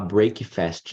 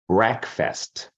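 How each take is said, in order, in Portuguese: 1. Ela é falada como duas palavras separadas. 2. Ela é falada como uma palavra só. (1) "Muitas pessoas querem falar break fast" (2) "Mas junto é break"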